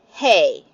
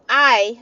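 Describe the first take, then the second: First: It starts with an audible h sound. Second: It starts with a vowel, no h sound. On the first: The speaker calls it wrong. "not hey" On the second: The speaker calls it right. "I would just say I"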